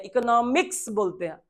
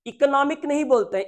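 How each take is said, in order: First: इकोनॉमिक्स with ks sounded; right form economics. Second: इकोनॉमिक said higher, no final s; wrong form economic. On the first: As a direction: give इकोनॉमिक्स as the correct form. (इकोनॉमिक्स, 'क्स' के साथ) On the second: (इकोनॉमिक, बिना 'स' के) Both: Shown as a demonstration.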